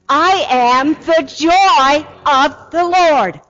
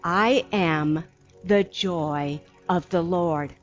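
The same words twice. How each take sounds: First: It is said with real, audible joy. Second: It is said in a plain, even tone.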